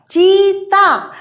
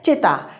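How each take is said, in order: First: चीता drawn out slowly with a long, higher ee; stressed long ee. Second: Said in the usual way. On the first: Shown as a demonstration. Teacher showing how stress changes meaning, long stressed ee in चीता. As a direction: put the weight on चीता's first vowel and stretch it. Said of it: "थोड़ा सा बल दे दिया चा की बड़ी की मात्रा पर". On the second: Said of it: "अगर हमने थोड़ा सा बल दे दिया".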